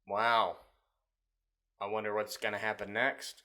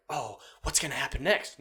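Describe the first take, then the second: First: Unimpressed wondering. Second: Raised, eager wondering; mock suspense. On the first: Acted. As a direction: feign interest with no energy at all. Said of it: "No, it's like". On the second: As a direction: wonder aloud as if hooked. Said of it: "but, like, unpredictable, like".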